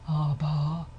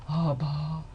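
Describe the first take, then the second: First: The voice is breathy, with audible airflow. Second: The same.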